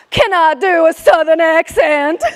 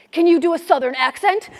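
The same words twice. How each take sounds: First: Loud, hammed-up Southern accent. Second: Said in the usual way. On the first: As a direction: echo it proudly in a big Southern twang.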